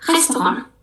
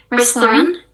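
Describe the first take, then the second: First: "restaurant" as hastohon, guttural r; French r in "restaurant"; French pronunciation. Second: "Restoran" with English r; English pronunciation. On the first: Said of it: "in French-nya kita bacanya". (cara Prancis "restaurant") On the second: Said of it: "in English". (cara Inggris) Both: Shown as a demonstration.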